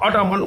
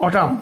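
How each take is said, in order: First: "অটামান" with an -an ending after the m; mispronounced autumn. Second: "অটাম" ending on m, n silent; correct pronunciation. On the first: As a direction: say "অটামান" in three syllables, n sounded. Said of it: "কিন্তু উচ্চারণটা হবে কিন্তু". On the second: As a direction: say "অটাম" in two syllables, no n. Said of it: "উচ্চারণটা হবে কিন্তু". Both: Shown as a demonstration.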